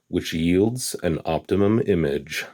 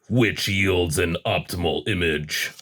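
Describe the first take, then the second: First: It is read in a plain, ordinary voice. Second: It is said in a deep, dramatic trailer voice.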